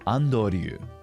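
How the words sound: It is said with Japanese pronunciation. "completely different"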